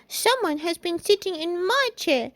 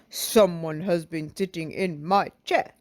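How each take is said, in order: First: A small, high-pitched childlike voice. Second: A deep, big, gruff voice. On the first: A small child character speaks. "in his little baby voice" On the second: A large character speaks. "in his great big voice"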